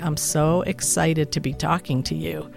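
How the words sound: It is said in an unexcited way.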